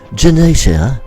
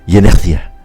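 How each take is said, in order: First: It is said with a British accent. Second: It is said with a Spanish accent. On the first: "How is it in British?" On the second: "Spanish would be in, in my Spanish"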